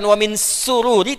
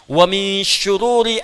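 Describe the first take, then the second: First: The word begins with an 's' sound. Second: The word begins with a 'sh' sound. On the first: It means joy. The speaker calls it wrong. "bukan wa min sururi" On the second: It means evils. The speaker calls it right. "bukan sin kecil"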